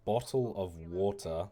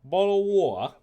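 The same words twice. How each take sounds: First: "bottle of water" said slowly in his own accent, T dropped; own British accent. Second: "bottle of water" much higher and louder, hammed up with the T dropped; exaggerated British accent. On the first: Streamer showing how he says it, slow and plain. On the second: Streamer exaggerating his British accent, loud and high. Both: Shown as a demonstration. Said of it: "I full on say".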